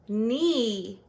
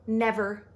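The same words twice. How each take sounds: First: The first vowel has a long sound. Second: The first vowel has a short sound. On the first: The speaker calls it wrong. "If we broke it up this way" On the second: The speaker calls it right. "the vowel is going to make its short sound"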